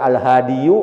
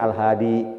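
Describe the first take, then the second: First: The word ends with a full 'iyu' syllable. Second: The word ends with a short plain 'i'. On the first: The speaker calls it wrong. "Daripada al-hadiyu" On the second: The speaker calls it right. "mending al-hadi gitu"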